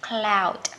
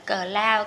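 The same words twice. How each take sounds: First: The opening consonants are blended together. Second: The opening consonants are split apart. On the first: The speaker calls it right. "Đọc liền ha, cụm phụ âm mà đọc liền" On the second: The speaker calls it wrong. "mình không được đọc tách ra như tiếng Việt"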